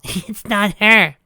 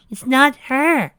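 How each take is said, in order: First: Eerie slow. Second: Eerie slow, higher. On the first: Pinky eerie. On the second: Pinky repeats. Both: Acted.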